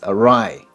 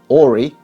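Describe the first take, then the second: First: The word ends with an 'eye' sound. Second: The word ends with an 'ee' sound. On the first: The speaker calls it right. "but it's awry" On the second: The speaker calls it wrong. "It looks a bit like Ori"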